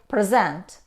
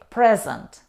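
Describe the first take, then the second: First: The stress is on the second syllable. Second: The stress is on the first syllable. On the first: It is a verb meaning to introduce. "If we stress on the second syllable, we say present" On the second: It is a noun or adjective meaning a gift or being there. "if we stress on the first syllable, we say present"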